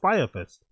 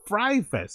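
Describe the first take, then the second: First: The first word is said like 'fire'. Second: The first word is said like 'fry'. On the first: The speaker calls it right. "and not Fire Fest" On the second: The speaker calls it wrong. "He pronounces it Fry Fest"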